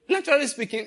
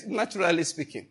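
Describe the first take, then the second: First: Naturally speaking said high with weight on naturally; stressed phrase. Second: Said in the usual way. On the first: Shown as a demonstration. Preacher conceding a point to the congregation, high stressed naturally.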